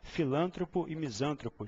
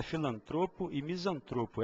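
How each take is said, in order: First: Filântropo and misântropo stressed on LAN and SAN; common mispronunciation. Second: Filantropo and misantropo stressed on TRO; correct pronunciation. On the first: Teacher shows everyday chat error, misplacing stress in filântropo, misântropo. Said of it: "As pessoas costumam falar". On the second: Teacher shifts the stress to the right place, TRO in filantropo, misantropo. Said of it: "O certo é". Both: Shown as a demonstration.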